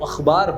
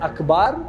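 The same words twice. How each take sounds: First: The middle consonant is a throaty fricative kh. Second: The middle consonant is a plain aspirated k. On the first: The speaker calls it right. "वो अखबार होता है" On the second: The speaker calls it wrong. "आप लोग बोलते हैं अखबार"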